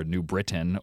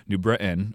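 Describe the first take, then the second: First: Said in the usual way. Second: BRITAIN with a throat catch for the T, "Bri'in"; without a T. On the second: Shown as a demonstration. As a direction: drop the T in BRITAIN. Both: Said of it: "it's easier to say it without a T".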